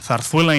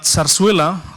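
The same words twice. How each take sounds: First: The z letters are said with a th. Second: The z letters are said with a buzzing z.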